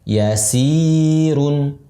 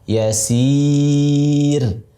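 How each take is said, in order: First: The middle vowel is held short, two counts. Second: The middle vowel is held long, four counts. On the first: The word is joined to what follows. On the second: The reader stops on this word. "si dibaca empat"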